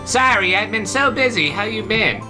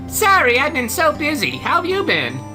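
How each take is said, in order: First: It is said in a deeper female voice. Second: It is said in a higher female voice.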